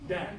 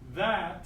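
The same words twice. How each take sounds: First: The word begins with a d sound. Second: The word begins with a th sound. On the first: "you write D A T" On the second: "instead of saying that"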